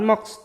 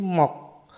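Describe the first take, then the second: First: The word ends with two consonants, k and s. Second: The word ends with a single consonant, k. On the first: The speaker calls it wrong. "bukan mox" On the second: The speaker calls it right. "tapi mok"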